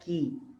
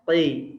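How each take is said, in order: First: The q is pronounced light and thin. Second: The q is pronounced heavy and thick. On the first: The speaker calls it wrong. "Nggak boleh" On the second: The speaker calls it right. "semuanya tebal"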